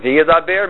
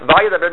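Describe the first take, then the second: First: "Yidaber" begun with a "ve" sound, ve-yidaber; pronounced with VE. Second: "Va Yidaber" begun with an open "va" sound; pronounced with VA. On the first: Teacher showing the future form, prefix pronounced ve. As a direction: say "Yidaber" with "ve" in front, not "va". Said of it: "he pronounces it ve". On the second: Teacher showing the past form, prefix pronounced va. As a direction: say "Va Yidaber" with "va", not "ve". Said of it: "write a patach under the vav". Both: Shown as a demonstration.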